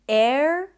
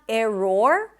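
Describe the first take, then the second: First: The middle vowel is a neutral schwa sound. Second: The middle vowel is a full O sound. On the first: The speaker calls it right. "it's error" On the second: The speaker calls it wrong. "It's not error, there is no O"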